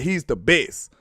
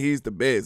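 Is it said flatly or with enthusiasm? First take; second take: enthusiasm; flatly. First: It is said with strong enthusiasm. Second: It is said flatly, without enthusiasm.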